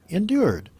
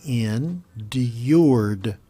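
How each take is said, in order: First: Said in the usual way. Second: ENDURED slowly pulled apart, in... d-yourd. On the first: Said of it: "if I just say it normally". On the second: Shown as a demonstration. Teacher slowing a word down for English learners, said slowly. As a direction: stretch "endured" out syllable by syllable. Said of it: "If you say it slowly".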